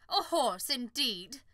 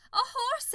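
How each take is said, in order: First: Loud offended scoff; indignant scorn. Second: High scornful take. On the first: Unicorn to the farmer, loud indignant scoff. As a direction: scoff it in pride. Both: Acted. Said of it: "she snorted".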